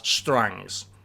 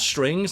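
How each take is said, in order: First: The vowel is drawled toward a Southern 'a' sound. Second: The vowel is a plain short i sound.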